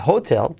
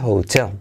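First: "hotel" stressed on the first syllable, HO-tel; mistaken stress. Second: "hotel" as ho-TEL; stress on second syllable. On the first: Teacher warning learners with the mistaken HO-tel version of "hotel". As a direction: punch the HO of "hotel". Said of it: "porque no se dice hotel". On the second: Teacher correcting learners, "hotel" stressed ho-TEL. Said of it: "en inglés se dice hotel". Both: Shown as a demonstration.

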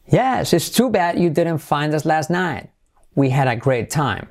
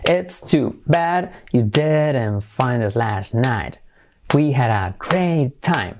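First: Connected phrase with a lively rise on "too bad"; expressive intonation. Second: Slow, evenly separated teaching delivery; slow careful model. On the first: Teacher showing learners the intonation, expressive and connected. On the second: Teacher modelling the example before the intonation, slow and careful. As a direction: say each word deliberately, stretching "great time". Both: Shown as a demonstration. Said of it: "Entonación".

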